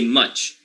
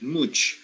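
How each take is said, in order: First: The vowel is a short schwa. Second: The vowel sounds like oo. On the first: The speaker calls it right. "So you say much. you are not hearing an oo anywhere" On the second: The speaker calls it wrong. "it does not sound like oo, like here you don't say much"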